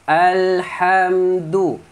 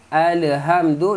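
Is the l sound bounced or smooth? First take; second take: smooth; bounced. First: The l is held smoothly without a bounce. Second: The l is released with an echoing bounce. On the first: The speaker calls it right. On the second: The speaker calls it wrong.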